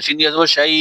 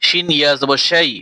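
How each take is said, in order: First: শাই kept short, no stretching; the correct short reading; short vowel. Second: The mistake to avoid; wrongly stretched. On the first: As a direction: clip শাই short as the rule says. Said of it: "এভাবে টান দেওয়া যাবে না". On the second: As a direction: stretch শাই where it should be short. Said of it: "ভুল করে এখানে টান দিবেন না". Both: Shown as a demonstration.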